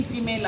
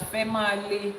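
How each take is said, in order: First: Said in the usual way. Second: "Fẹ́ máa le" in three syllables, feh-MAH-leh; misread word. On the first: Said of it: "He doesn't know the difference". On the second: Shown as a demonstration. Explaining the man's sign mistake, female misread as "Fẹ́ máa le". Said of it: "He's reading female as".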